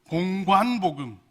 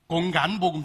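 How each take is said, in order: First: The second syllable has the rounded gwan sound. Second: The second syllable is flattened to a gan sound. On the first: The speaker calls it right. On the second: The speaker calls it wrong.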